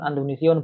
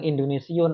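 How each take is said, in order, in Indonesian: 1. Kata ini diawali dengan vokal 'a'. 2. Kata ini diawali dengan vokal 'i'. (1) "maka dibaca fathah Andonesiyun" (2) "dikatakan Indonesiun"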